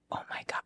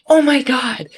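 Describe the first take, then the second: First: Very soft, voiceless gasp of words; hushed disbelief. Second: High, loud retold shock; shocked exclamation. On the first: Retold or imitated. Falconer reliving the bird landing on her glove, hushed disbelief. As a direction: say it under the breath, as if stunned. Retold stunned aside to the bird. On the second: Falconer reliving her bird hitting a man's face, shocked exclamation. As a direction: exclaim it in mock alarm, pitched way up.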